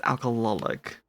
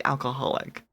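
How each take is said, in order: First: "Alcoholic" as al-kuh-LOL-ik; L instead of H. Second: "Alcoholic" with an H, as in the ordinary word alcoholic. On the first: Streamer giving the real name, "Alcoholic" pronounced al-kuh-LOL-ik. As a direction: say "Alcoholic" with an L in place of the H. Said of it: "But it's Alcoholic". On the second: Streamer showing what the name sounds like, "Alcoholic" said as the common word. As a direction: pronounce "Alcoholic" as al-kuh-HOL-ik. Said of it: "sounds just like Alcoholic". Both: Shown as a demonstration.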